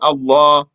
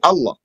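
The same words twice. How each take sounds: First: The final h is dropped; the long vowel stays. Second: Both the long vowel and final h are dropped. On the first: "omit the ha and say Allah" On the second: "without a ha or a alif"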